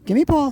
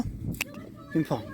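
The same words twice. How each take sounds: First: Said in the usual way. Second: High and very slow "Give me Paul"; high coaxing. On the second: Real, not acted. Coaxing dog, stretched high.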